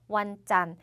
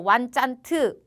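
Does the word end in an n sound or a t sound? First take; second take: n sound; t sound. First: The word ends on an n sound. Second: The word ends with an added t sound. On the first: The speaker calls it right. "짠까지만 읽어주는 거예요" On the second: The speaker calls it wrong. "그렇게 읽어주시면 안 돼요"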